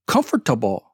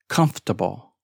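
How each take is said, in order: First: Every written letter is pronounced. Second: Some written letters are left silent. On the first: The speaker calls it wrong. "I've had students say" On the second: The speaker calls it right. "silent letters"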